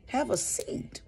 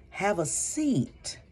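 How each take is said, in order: First: High breathy whisper of "Have a seat". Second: Each word spaced out slowly; slow deliberate. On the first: Repeating her advice to sit down, whispered. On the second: Advising listeners on breakups, slow and measured. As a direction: lay out "have a seat" slowly and calmly. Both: Shown as a demonstration.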